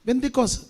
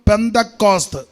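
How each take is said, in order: First: It starts with b and ends in s. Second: It starts with p and ends in st. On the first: The speaker calls it wrong. "ബന്ദിക്കോസും അല്ല" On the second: The speaker calls it right. "മലയാളത്തിൽ ഉച്ചരിക്കുമ്പോൾ പെന്തക്കോസ്ത്"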